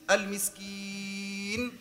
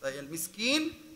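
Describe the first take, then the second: First: The long vowel is held for four counts. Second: The long vowel is held for two counts. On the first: "Correct 4" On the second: "Correct 2"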